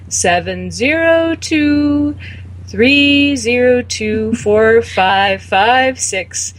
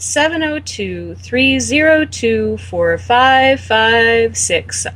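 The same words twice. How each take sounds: First: The number is read slowly and deliberately. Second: The number is read at a normal pace.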